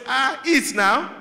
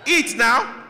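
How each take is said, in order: First: Slow, high, sweetly menacing "eat now"; sweet trap. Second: Loud, high "Eat now" shouted; loud trap warning. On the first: Mother insisting on the trap at the visit, slow and high. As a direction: coax slowly, with a hidden threat. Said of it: "what your mom says". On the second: Mother warning her child, loud and high. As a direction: bark "Eat now" as a threat. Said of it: "that "eat now" is a trap". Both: Retold or imitated.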